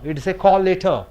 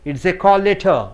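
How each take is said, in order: The two takes are said the same way.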